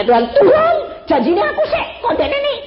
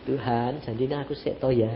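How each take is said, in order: First: High, loud wail of protest; imitated cry to God. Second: Low, soft little plea; meek imitated prayer. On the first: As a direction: cry out to God as the distraught wife. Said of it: "dia teriak". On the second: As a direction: murmur it to God as the wife, small and quiet. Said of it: "Dia cuma gini".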